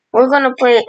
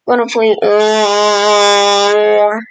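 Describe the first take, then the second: First: Said in the usual way. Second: Very slow, dragged-out words; stretched-out stall. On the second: Pretend. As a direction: drag it out like a teasing build-up. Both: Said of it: "repeats the phrase, stalling".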